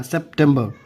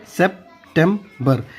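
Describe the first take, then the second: First: Said in the usual way. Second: "September" slowly as sep... tem... ber; broken into syllables. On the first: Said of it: "कैसे?". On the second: Shown as a demonstration. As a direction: break "September" into three parts for learners. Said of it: "वैसे याद करना है तोड़ तोड़ के".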